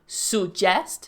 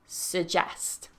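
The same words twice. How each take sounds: First: The first vowel is a full, strong vowel. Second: The first vowel is a relaxed schwa. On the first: The speaker calls it wrong. "the first vowel is u" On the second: The speaker calls it right. "really it should be a schwa"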